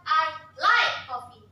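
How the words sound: The word like carries the strongest stress. The speaker really does like it. "Benar suka"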